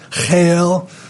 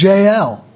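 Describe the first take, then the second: First: The name is said in a Hebrew way. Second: The name is said in an English way. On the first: "in the Hebrew or in the language of the time it's Chael" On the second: "if I'm pronouncing that right"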